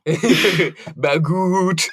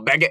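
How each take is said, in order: First: The last syllable is said with an 'oo' vowel. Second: The last syllable is said with an 'eh' vowel. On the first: The speaker calls it wrong. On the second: The speaker calls it right.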